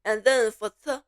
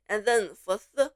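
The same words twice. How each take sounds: The two takes are said the same way.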